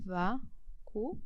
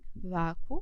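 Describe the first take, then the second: First: The end splits apart, three syllables total. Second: The end is one gliding syllable, two syllables total. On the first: It is a proparoxytone. "Já nesse segundo, é a antepenúltima" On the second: It is a paroxytone ending in a rising diphthong. "nesse primeiro caso aqui, quem é a sílaba mais forte? A penúltima"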